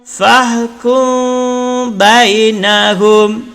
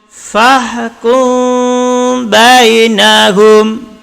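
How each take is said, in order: The two takes are said the same way.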